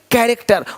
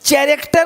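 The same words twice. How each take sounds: First: The word begins with a k sound. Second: The word begins with a ch sound. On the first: The speaker calls it right. "यहाँ भी सी एच भी का है" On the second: The speaker calls it wrong. "कैरेक्टर नहीं"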